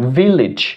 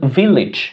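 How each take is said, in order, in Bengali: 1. শেষটা 'ij'-এর মতো উচ্চারিত হয়। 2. শেষটা 'ij'-এর মতো উচ্চারিত হয়।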